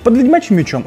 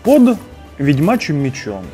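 First: The phrase is said quickly. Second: The phrase is said slowly. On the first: The speaker calls it wrong. "Не" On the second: The speaker calls it right. "нужно просто говорить медленно"

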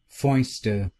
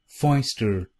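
First: It is said in a British accent. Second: It is said in an American accent.

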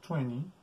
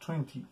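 First: It is said with an American English accent. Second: It is said with a British English accent. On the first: "en inglés americano" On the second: "en inglés británico"

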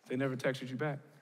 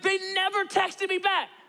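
First: It sounds calm and unimpressed. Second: It sounds angry and upset.

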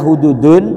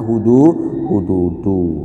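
First: The word ends with an added -n sound. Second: The word ends on a plain -u vowel. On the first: The word stands alone, not joined. The speaker calls it wrong. "tidak baca hududun karena mudob kepada kata Allah" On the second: The word is joined to the following noun. The speaker calls it right. "maka dibaca hududu"

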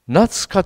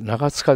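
First: The name is pronounced Natsuka. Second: The name is pronounced Nagatsuka. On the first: The speaker calls it right. "夏香と言います。" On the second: The speaker calls it wrong. "長塚ではなくて、"

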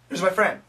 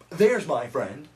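First: The opening TH sound is very short. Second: The opening TH sound is long and drawn out. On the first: The speaker calls it right. "So the TH begins inside the mouth. It's really, really short" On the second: The speaker calls it wrong.

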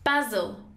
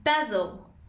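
First: It is said with a British pronunciation. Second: It is said with a British pronunciation.

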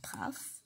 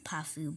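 First: The name ends on the final consonant. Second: The name ends with an added vowel sound. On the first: "I like to pronounce it as Puff" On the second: "some of you pronounce it as Puffu"

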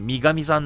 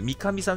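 First: The name is said with a voiced g sound. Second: The name is said with a plain k sound. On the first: "濁点つけたがるんで" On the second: "三上さんじゃなくて"

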